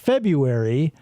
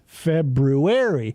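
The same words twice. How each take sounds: First: The first r is dropped. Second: The first r is clearly pronounced. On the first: This is the commonly accepted way to say it. "we just accepted it's said February" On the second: This is how the spelling reads. "If you read it, it's pronounced February"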